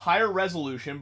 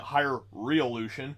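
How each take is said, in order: First: Said in the usual way. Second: "reolution" said as ree-oh-LOO-shun, no z sound; misspelling read out. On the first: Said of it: "but I spelled it higher reolution". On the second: Shown as a demonstration. Owning up to a typo, "reolution" sounded out as misspelled. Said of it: "I spelled it higher reolution".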